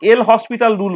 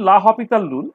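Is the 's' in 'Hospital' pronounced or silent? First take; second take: pronounced; silent. First: The name is said like English 'hospital', with 's'. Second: The name is said as 'la hopital', without 's'. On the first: The speaker calls it wrong. "এল হসপিটাল rule বলে সেটাকে" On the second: The speaker calls it right. "Actually লা হপিটাল rule"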